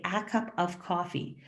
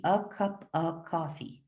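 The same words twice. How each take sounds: First: A as a full ae and of with a clear v; a careful, quiet formal take; formal pronunciation. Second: A as schwa and of as uh, slow; a natural, slurred everyday take; casual reduced speech. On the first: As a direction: spell it out carefully. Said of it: "if I'm trying to pronounce formally". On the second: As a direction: say it relaxed, a cup uh coffee. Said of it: "in normal speech between normal native speakers". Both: Shown as a demonstration.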